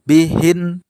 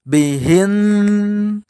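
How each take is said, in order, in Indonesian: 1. Huruf n terakhir biasa, tanpa dengung. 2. Huruf n terakhir memiliki dengung yang panjang. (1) "contoh yang salah tidak ada dengung bihin" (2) "ada dengung bihin"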